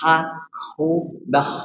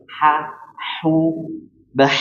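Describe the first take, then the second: First: The h is raspy, drifting toward kh. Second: The h is a pure breathy sound. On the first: The speaker calls it wrong. "Jangan sampai ... Ini salah. Kalau seperti ini artinya melenceng kepada mahornya huruf kho" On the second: The speaker calls it right. "coba dilatih ya"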